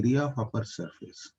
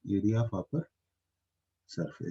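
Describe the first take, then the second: First: Slow, deliberate, word by word; slow, careful dictation; said slowly. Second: Said in the usual way. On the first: Shown as a demonstration. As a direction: spell out "area of upper surface" slowly with weight on "area". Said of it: "आप इसे ऐसे बोलिए". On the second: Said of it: "तो इसको ऐसे लिखो".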